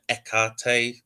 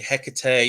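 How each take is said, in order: First: The word begins with a soft, light H. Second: The word begins with a hard, strong H. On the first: This is the ancient Greek way of saying it. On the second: This is how some people say it today.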